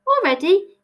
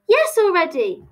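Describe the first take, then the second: First: "Already" rising as a question; high, doubting lift on "Already". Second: "already" falling as a firm answer; high "Yes", then "already" coming down decisively; confirming. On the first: Alice queries Tilly leaving, "Already" asked with a rise. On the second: Answering the question about leaving, "already" confirmed with a fall. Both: Acted.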